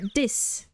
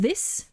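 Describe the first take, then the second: First: It begins with a hard d sound. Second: It begins with a soft th sound. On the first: "other people will pronounce it like a D" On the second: "instead of this"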